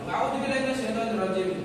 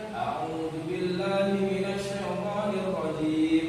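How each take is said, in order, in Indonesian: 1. Dibaca dengan cepat dengan vokal pendek. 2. Dibaca dengan lambat dengan vokal panjang. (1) "Kalau kita terburu-buru, enggak boleh" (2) "itu kan tartil"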